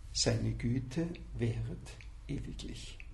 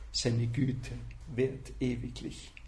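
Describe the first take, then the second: The two takes are said the same way.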